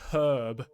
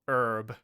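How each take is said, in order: First: The word begins with a clear h sound. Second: The word begins with a vowel, no h sound. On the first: The speaker calls it right. "Like with a H" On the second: The speaker calls it wrong. "when Americans say it like that"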